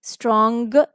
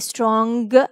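First: The final g is pronounced strongly. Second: The final g is pronounced strongly.

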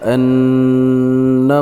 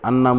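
First: The double n is held with a nasal hum. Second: The double n is short, without a nasal hum. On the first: The speaker calls it right. "এখানে গুণা হবে" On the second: The speaker calls it wrong. "এগুলা শুনলেও মানে কেমন জানি দেখা যায়"

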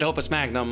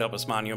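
First: The g and n are both sounded. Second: The gn is said like ny. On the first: "like one would do in English" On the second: "I just see that GN and I gotta go with the Nya"

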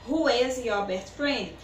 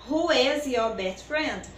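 No difference in how they are said.

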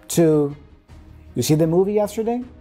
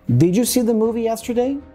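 First: The opening 'did you' is squeezed into one syllable. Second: The opening 'did you' is said in full.

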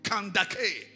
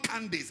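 First: The consonant after the d is a k sound. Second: The consonant after the d is an s sound. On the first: The speaker calls it right. "That's the real pronunciation" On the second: The speaker calls it wrong. "That is not Candace"

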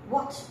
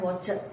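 First: The word is said as one syllable. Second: The word is said as two syllables. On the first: The speaker calls it right. "satu suku kata" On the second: The speaker calls it wrong. "bukan watched"

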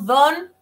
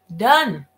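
First: The vowel sounds like a plain Spanish o. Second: The vowel does not sound like a plain o. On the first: The speaker calls it wrong. "No don" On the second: The speaker calls it right. "esta no es una O, es una OA"

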